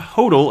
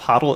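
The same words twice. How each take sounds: First: The name is said to rhyme with 'cold'. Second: The name is said not rhyming with 'cold'. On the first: The speaker calls it right. "He likes his name pronounced Stone Hodel" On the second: The speaker calls it wrong. "instead of Hodel"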